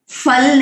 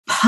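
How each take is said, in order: First: फल with an English f; फल said with f, lips on teeth; wrong ph sound. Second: फ aspirated p, lips closed; फ as a breathy puffed p, not f; correct pha. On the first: Chanting teacher showing the common mistake, फल with f. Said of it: "फ नहीं है संस्कृत में". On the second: Teacher correcting students, फ as aspirated p. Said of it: "फ बोलते हैं". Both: Shown as a demonstration.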